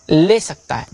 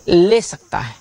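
Both takes have the same delivery.

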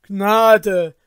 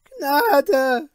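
First: Loud plea for mercy; crying for mercy. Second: High, loud rising cry for mercy; desperate plea. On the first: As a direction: beg loudly, throwing themselves down. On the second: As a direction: wail it in terror. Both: Acted. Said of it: "Sie stürzten nieder und riefen".

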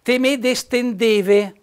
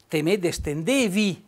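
First: "Te me destendeve" very slow, higher and louder, final -e stretched out; Riva dialect ending. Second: "te me destendevi" slow and level, closing on a plain -i; Arco dialect ending. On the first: Host contrasting Riva and Arco dialects, slow demonstration. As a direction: drag out "destendeve" so the closing e is clear. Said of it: "dialetto rivano". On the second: Host giving the Arco form for viewers, calm and slow. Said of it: "noi ad Aco diciamo". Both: Shown as a demonstration.

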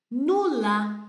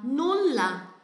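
First: Nulla with the double L held a bit longer; Nulla, lingering on the ll. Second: Nulla with the ll lengthened and a falling end; nulla, double L stretched; long double L. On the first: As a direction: stretch the ll in Nulla. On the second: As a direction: hold the ll in nulla a little longer. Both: Shown as a demonstration. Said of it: "alonga um pouquinho mais o som".

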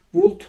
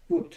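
First: Would with the L sounded, wuld; wrong L sound. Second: Would said wood, with no L sound; silent L. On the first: Teacher shows the wrong Would with an L sounded. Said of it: "bu L harfini okumuyoruz ... Would değil". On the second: Teacher gives the right Would, L left silent. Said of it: "Would değil". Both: Shown as a demonstration.

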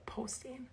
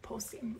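First: Posting with a Minnesota o; Minnesota accent. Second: Whispered Posting, no voice. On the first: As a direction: stretch the o in Posting, Minnesota style. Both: Shown as a demonstration. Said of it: "It wasn't as strong that second time".

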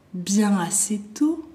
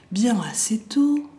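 No difference in how they are said.

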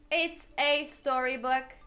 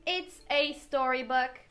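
Both takes have the same delivery.

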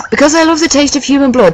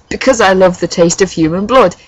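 First: High, lightly giggly voice. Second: Said in the usual way. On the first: A narrator's reading. Boy confessing his taste for blood, high giggly voice. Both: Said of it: "he giggled".

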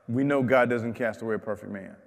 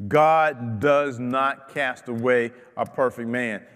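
First: Fast, offhand paraphrase of the verse; quick restatement. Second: Slow, weighty quote of Bildad's words; slow quoting. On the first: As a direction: toss it off quickly as common knowledge. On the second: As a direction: lay each word of the verse down slowly. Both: Shown as a demonstration.

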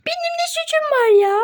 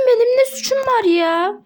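First: Same protest, pitched much higher; squeaky protest. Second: Said in the usual way. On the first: Acted. Pony repeating her innocence to teammates, much higher squeak. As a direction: squeak it out like a wronged little pony.

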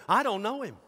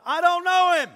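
First: Higher-pitched brush-off; mildly indignant acted denial; quick denial. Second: High, explosive yell; shouted denial. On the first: Disciple denying Jesus to a little girl, mild protest. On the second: Acted. Disciple denying Jesus to a stranger, angry shout. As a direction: shout it in indignant protest. Peter's second denial, acted louder.

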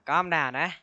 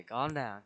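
First: Calm down said higher and louder, urgent; shouted calm down at the jumpy object. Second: Said in the usual way. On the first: Real, not acted. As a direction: raise the voice on the second calm down.

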